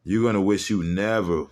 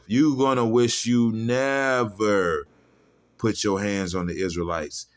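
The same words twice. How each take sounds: First: Said in the usual way. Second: Slow emphatic threat. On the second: Real, not acted. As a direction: lean into every word like a preacher. Build-up repeating the threat.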